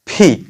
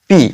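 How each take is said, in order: First: The p has a strong puff of air. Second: The p has no puff of air. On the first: The speaker calls it right. "Right প্রোনাউন্সিয়েশনটা হচ্ছে আমাদের ফি ফয়ের মতো হবে" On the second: The speaker calls it wrong. "এটা হচ্ছে রং pronunciation"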